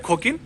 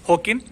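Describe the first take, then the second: First: It begins with a rough kh sound. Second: It begins with a breathy h sound. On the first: "अगर आप खोता का साउंड ख या है ले रहे हो" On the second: "अगर आप खोता का साउंड ख या है ले रहे हो"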